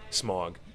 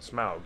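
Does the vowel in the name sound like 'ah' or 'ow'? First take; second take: ah; ow. First: The vowel is a plain 'ah' sound. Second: The vowel is an 'ow' sound, as in loud. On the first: The speaker calls it wrong. "all the kids would say it, Smog. It's not Smog" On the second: The speaker calls it right. "it's Smaug with an ow, a loud sound"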